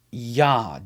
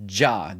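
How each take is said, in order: First: Yah said with a Y sound and an open ah; Yah pronounced. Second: Jah said with a J sound and an open ah; Jah variant. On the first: Teacher shows how the first syllable of God's name sounds: open Yah. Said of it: "is pronounced". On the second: Teacher contrasts the J spelling with Yah: Jah with a J. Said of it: "The J is the German English version of Yah". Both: Shown as a demonstration.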